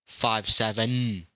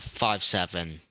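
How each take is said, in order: First: It is said with strong, forceful emphasis. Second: It is said plainly, without extra force.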